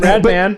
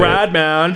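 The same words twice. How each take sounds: First: It is said in the speaker's ordinary voice. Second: It is said in a put-on snowboarder voice. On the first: The speaker calls it wrong. "Not how you, you would say it" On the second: The speaker calls it right. "how would that person say it"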